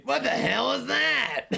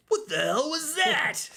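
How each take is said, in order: First: Very high cartoon clown squawk; Krusty the Clown voice. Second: High, raspy, slow clown bark; Krusty the Clown voice. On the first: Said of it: "I can do a pretty good Krusty Cr-, Clown impression". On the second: Acted. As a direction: squawk it like a cartoon clown. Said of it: "Krusty Cr-, Clown impression".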